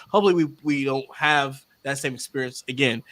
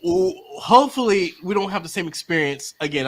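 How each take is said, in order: First: Said softer, mic pushed back; quieter. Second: Said in the usual way. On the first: Shown as a demonstration. Speaker not wanting to be too loud, softer. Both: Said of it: "I don't wanna be too loud".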